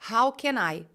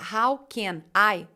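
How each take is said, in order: First: The n of can runs into I. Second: The words can and I are said separately. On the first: The speaker calls it right. "você vai juntar as duas" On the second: The speaker calls it wrong. "em vez de eu falar"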